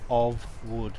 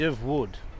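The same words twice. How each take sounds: First: The vowel in 'of' is full and stressed. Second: The vowel in 'of' is a weak schwa. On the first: The speaker calls it wrong. "We don't say of wood" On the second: The speaker calls it right. "we say of. They're made of wood"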